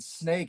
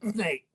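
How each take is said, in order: First: The s sound is clear and normal. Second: The s sound comes out like a grunt.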